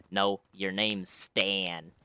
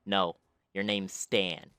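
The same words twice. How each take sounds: First: Put-on slow, drawn-out odd kid voice; a mild take on the odd kid's slow voice. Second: Put-on slow, drawn-out odd kid voice; a light imitation of the strange boy; odd kid's voice. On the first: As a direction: drag the words out like the strange boy. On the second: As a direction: slowly mimic the oddball son. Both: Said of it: "The kid's voice was literally like".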